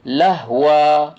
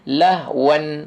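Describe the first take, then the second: First: The word ends on a vowel without n. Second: The word ends with a clear n sound. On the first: The nun is hidden in this reading. "Tapi orang baca lahwa, lahwa dia tak nampak nun dia" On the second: The nun is shown in this reading. "Tapi kalau dia baca asal, lahwan"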